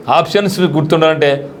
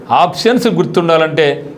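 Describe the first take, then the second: No difference in how they are said.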